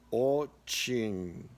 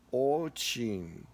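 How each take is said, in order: The two takes are said the same way.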